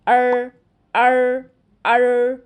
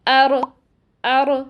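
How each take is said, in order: First: The r is made far back, sounding retroflex. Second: The r ends with a short echoing bounce. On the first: "ज़बान सही मखरज पे नहीं लगती तो ऐसी आवाज़ आती है" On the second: "जल्दी से अदा कर देते हैं, जिसकी वजह से रॉ में कलकला किसी आवाज़ पैदा हो जाती है"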